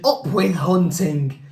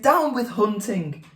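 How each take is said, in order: First: Slow, chanting storybook shout; shouted slogan. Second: Chanted, higher-pitched hooting protest; chanted, hoot it out higher, as a lone small dissenter. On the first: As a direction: chant it slowly like a rallying cry. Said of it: "And they shouted". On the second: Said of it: "For he hooted". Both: A narrator's reading.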